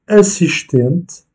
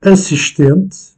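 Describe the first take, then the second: First: "assistente" said slowly, stress on the second-to-last syllable; tonic stress demo. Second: "Assistente" slow and higher, stress on the second-to-last syllable; tonic stress demo. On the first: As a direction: stretch out "assistente" and lean on "ten". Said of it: "syllabe tonique". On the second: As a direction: lift "Assistente" and dwell on "ten". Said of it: "sur l'avant-dernière syllabe". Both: Shown as a demonstration.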